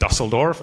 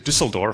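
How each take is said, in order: First: The first vowel is a plain 'oo' sound. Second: The first vowel is a rounded 'ü' sound. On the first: The speaker calls it wrong. "I know I'm mispronouncing it" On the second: The speaker calls it right. "it's actually Düsseldorf, and it has an umlaut on the U"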